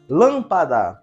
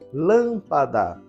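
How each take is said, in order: First: It is called out loudly, first syllable lengthened. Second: It is said at normal volume.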